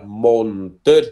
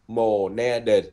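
First: The word is said quickly with syllables reduced. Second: The word is said slowly with all syllables. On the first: "người ta đọc lẹ cái chữ này lắm, người ta đọc là mồn tên" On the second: "nếu đọc chậm là Monadel"

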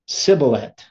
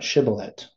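First: The word begins with an s sound. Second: The word begins with an sh sound. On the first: The speaker cannot produce the expected sound. The speaker calls it wrong. "they're not going to be able to say the SH sound. So they're going to say, like, the Samech sound" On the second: The speaker produces the expected sound. The speaker calls it right. "Not Shibboleth"

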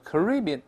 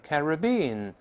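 First: The stress is on the second syllable. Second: The stress is not on the second syllable.

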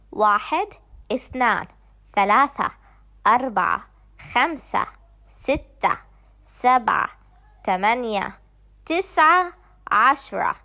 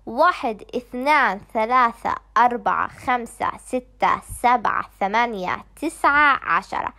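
First: The numbers are counted at a fast pace. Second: The numbers are counted at a very fast pace.

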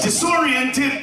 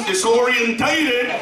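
First: It is said without an extra 'ta' syllable. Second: It is said with an extra 'ta' syllable. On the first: The speaker calls it right. "It's disoriented" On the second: The speaker calls it wrong. "but he said I was disorientated"

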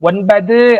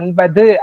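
First: The final u vowel is said at full length. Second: The final u vowel is said clipped and short. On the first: The speaker calls it wrong. "ஒன்பது அப்படின்னு சொல்ல மாட்டோம்" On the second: The speaker calls it right. "ஒன்பது அப்படின்னு தான் சொல்லுவோம்"

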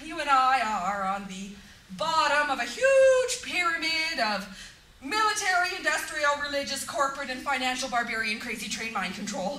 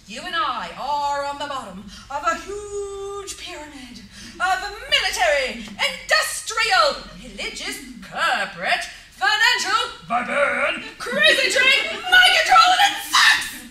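First: It is said quickly, in one rush. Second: It is said slowly, word by word.

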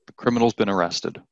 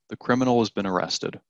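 First: The word has is reduced to an s sound. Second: The word has is said in full.

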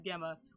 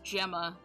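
First: The name begins with a hard G sound. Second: The name begins with a soft G sound. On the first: The speaker calls it wrong. "I read it as Gemma with a hard G" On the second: The speaker calls it right. "it is Gemma"

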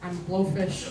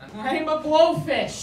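First: It is said at a quiet volume. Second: It is said at a loud volume.

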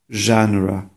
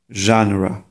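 Both takes have the same delivery.

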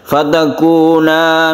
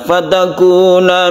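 First: The final vowel is held long. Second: The final vowel is cut short. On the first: Two people are being addressed. The speaker calls it right. "padahal ini panjang ya" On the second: One person is being addressed. The speaker calls it wrong.

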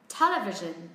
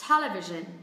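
Both takes have the same delivery.

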